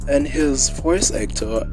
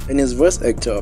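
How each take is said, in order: First: It is spoken in a very posh accent. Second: It is spoken in a plain, normal voice.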